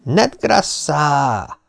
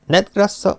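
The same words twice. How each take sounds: First: One long, stretched-out call; drawn-out showman's shout; triumphant vendor's cry. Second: Said in the usual way. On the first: A narrator's reading. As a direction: hold the word out for the whole crowd. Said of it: "karját kinyújtva kiáltott".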